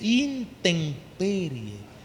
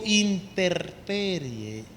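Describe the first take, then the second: First: An m sound comes before the p. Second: An r sound comes before the p. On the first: The speaker calls it right. "se dice intemperie" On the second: The speaker calls it wrong. "no se dice interperie"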